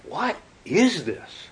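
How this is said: It is asked in a tone of open wonder.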